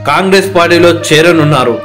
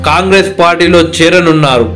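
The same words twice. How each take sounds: The two takes are said the same way.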